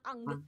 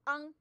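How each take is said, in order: First: The final g sound is strongly pronounced. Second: The final g sound is soft and light. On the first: The speaker calls it wrong. "not ang" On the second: The speaker calls it right. "Just say ang"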